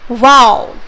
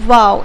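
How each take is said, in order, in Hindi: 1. यह शब्द जोरदार उत्साह के साथ, बहुत ज़ोर देकर कहा गया है। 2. यह शब्द सामान्य तरीके से कहा गया है, बिना अतिरिक्त जोर के। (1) "अगर आप एक्सक्लेमेशन मार्क लगा देते हो तो हम इसे कैसे प्रोनाउंस करोगे?" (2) "अगर हम सिंपली बोलते हैं इसको"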